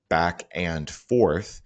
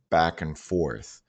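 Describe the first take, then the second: First: Each word is said separately and distinctly. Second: The words flow together in one connected phrase. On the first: The speaker calls it wrong. "focusing on each individual word and sound" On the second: The speaker calls it right. "she could say it fluently like"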